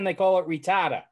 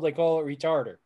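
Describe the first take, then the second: First: It is said with a Boston accent. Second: It is said with a standard accent.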